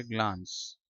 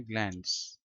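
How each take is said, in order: First: "ग्लांस" with a long open "aa" vowel; British pronunciation. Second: "ग्लैंस" with a front "ae" vowel as in cat; American pronunciation. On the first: Teacher showing students the British reading of "ग्लांस", long "aa". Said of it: "British accent में इसको पढ़ेंगे ग्लांस". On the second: Teacher showing students the American reading of "ग्लैंस", front "ae" vowel. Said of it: "American accent में है ग्लैंस". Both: Shown as a demonstration.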